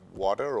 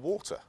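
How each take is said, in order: First: It is said with an American pronunciation. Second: It is said with a British pronunciation.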